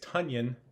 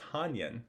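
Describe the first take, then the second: First: The name rhymes with Funyon. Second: The name does not rhyme with Funyon. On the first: The speaker calls it right. "it is Tunyon, which rhymes with Funyon" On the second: The speaker calls it wrong. "not Tanyan"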